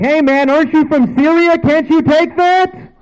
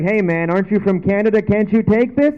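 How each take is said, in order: First: Loud, very high jeering yell; mock taunting shout. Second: Lightly mimicked higher teasing voice; teasing girlfriend. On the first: Taunting someone shot from Syria, hammed-up high shout. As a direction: exaggerate the taunt, shouting high, dragging out the end. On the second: Girlfriend teases him about the cold, lightly mocked higher voice. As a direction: imitate a teasing challenge, pitched up. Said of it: "my girlfriend teases me".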